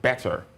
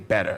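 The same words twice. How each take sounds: First: It is said with a pronounced final R sound. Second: It is said with a strongly American accent. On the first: "if I consider the rhotic factor, I would say, first of all" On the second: "if I get really American, I'm considering other features of the accent"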